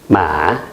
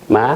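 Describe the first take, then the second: First: Said with the tone meaning tomb. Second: Said with the tone meaning mother. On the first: The word means tomb. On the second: The word means mother.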